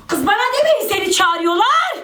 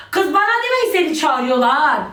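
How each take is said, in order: First: "demeyin" pushed up high, whiny and insistent; exasperated whine. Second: Said in the usual way. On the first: Real, not acted. Telling her friends to stop relaying invites, high exasperated whine. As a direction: say it again much higher, fed up. Repeats request more insistently.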